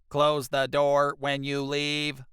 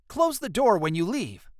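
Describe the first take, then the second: First: It is said in a flat robot voice. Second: It is said in a natural voice.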